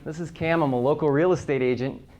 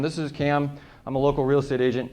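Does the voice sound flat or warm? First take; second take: warm; flat. First: The voice sounds warm and smiling. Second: The voice sounds flat and unsmiling. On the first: The speaker calls it right. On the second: The speaker calls it wrong. "if I'm talking like this"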